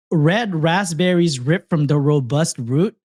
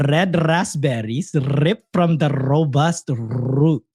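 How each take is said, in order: First: Said in the usual way. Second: Slow, careful "Red raspberries ripped" with every R rolled; rolled R demo. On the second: Shown as a demonstration. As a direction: roll each R in "raspberries" and "root" slowly. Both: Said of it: "Try and roll your R".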